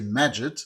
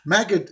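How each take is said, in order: First: The middle consonant is a J sound. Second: The middle consonant is a hard G sound. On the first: This is the classical Arabic way of saying it. "classical Arabic. We say Majid" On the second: This is the Egyptian way of saying it. "pronounced in in in the Egyptian way"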